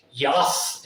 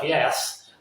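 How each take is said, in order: First: "Yas" with an open a sound, like "yahss"; her way of saying yes. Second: Said in the usual way. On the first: Retold or imitated. Ex's quirky "Yas" for yes, imitated lightly. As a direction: say "Yas" with a flat open a instead of the e. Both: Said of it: "instead of".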